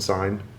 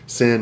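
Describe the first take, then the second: First: It is said as one syllable with a long i. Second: It is said as one syllable with a short i. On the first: This is the common American misreading. The speaker calls it wrong. "closer than sign" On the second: This is the closer American approximation. The speaker calls it right. "sin is actually closer"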